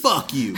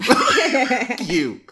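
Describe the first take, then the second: First: Said in the usual way. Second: Laughing mock curse, pitched higher. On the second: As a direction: crack up through the curse.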